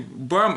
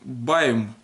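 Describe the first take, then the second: First: The vowel is a plain a sound. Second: The vowel is the diphthong ai. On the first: The speaker calls it wrong. "не бам" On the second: The speaker calls it right. "а байм"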